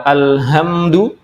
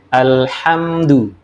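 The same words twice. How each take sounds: First: ALHAMDU slowly, with the H mispronounced; wrong H sound. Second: ALHAMDU slowly, with the proper Arabic H; correct H sound. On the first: Teacher shows the meaning-changing slip, ALHAMDU with wrong H. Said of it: "itu kematian". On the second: Teacher gives the word meaning praise, ALHAMDU with correct H. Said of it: "Itu artinya pujian". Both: Shown as a demonstration.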